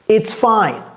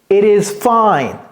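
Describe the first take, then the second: First: The two words are contracted into one. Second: The two words are said in full.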